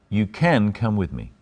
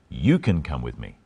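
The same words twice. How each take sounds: First: The stress is on "can". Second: The stress is on "you".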